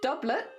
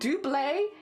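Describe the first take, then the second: First: It is said with a British pronunciation. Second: It is said with a French pronunciation. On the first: "pronounced doublet in the U K" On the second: "double in France, which is where the word originated"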